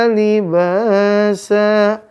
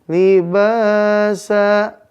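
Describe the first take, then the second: The two takes are said the same way.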